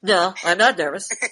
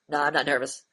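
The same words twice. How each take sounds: First: It is said with a sarcastic laugh. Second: It is said plainly, without laughing.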